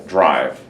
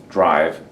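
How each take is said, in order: No difference in how they are said.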